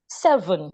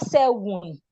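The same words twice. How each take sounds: First: The middle consonant is a clear V. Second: The middle consonant sounds like a W. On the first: The speaker calls it right. "it's not a W, it's a V" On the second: The speaker calls it wrong. "It is not seven. Some people pronounce the V like a W"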